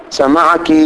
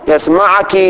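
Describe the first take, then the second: First: سمعك said as sami'aki, the final vowel light and short; feminine ending. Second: يسمعك said as yasma'uki, the final vowel clipped; feminine ending. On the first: Teacher giving the feminine form, سمعك with a short ki. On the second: Teacher giving the feminine form, يسمعك with a short ki. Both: Shown as a demonstration. Teacher lists pronoun forms.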